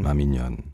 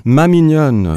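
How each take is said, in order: First: "ma mignonne" dropped low and soft, as a final cadence; closing line. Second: "ma mignonne" lifted higher and louder, as an opening; opening line. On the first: Translator showing the host how the poem closes, falling and quiet. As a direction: let "ma mignonne" fall away like the poem's ending. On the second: Translator showing the host how the poem opens, lifted and bright. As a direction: ring out "mignonne" like the start of the poem. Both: Shown as a demonstration. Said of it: "is identical to the last line".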